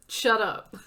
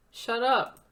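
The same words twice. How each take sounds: First: Loud, firm cut-off of a friend's self-pity; loud shut up. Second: Loud, insistent, falling finish; loud shut up again. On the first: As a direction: shout it down so she stops. Friend cuts off her self-blame. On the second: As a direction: refuse to hear her self-pity. Friend repeats, insisting. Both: Acted.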